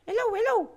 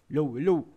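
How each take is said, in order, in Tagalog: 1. Binago ang boses at ginawang boses ng ginagayang karakter. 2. Malapit ito sa karaniwang boses ng nagsasalita. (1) "kaboses na natin si Aling Uling" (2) "mukhang hindi taka-boses si Aling Uling ah"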